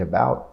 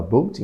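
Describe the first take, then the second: First: "about" with an open ow diphthong; standard American pronunciation. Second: Mock Canadian "boat" with a long o; Canadian accent. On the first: Teacher contrasting with Canadian speech, standard "about". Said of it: "em vez de". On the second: Teacher demonstrating Canadian speech, Canadian accent on "boat". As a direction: say "boat" for "about", Canadian style. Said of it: "você fala". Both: Shown as a demonstration.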